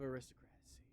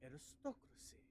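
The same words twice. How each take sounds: First: It is said in a plain way. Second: It is said in a posh way.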